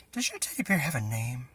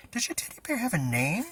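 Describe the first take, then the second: First: Said in the usual way. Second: Repeated a bit louder, pitch up. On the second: Acted. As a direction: say it again, louder so he hears. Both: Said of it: "I said louder".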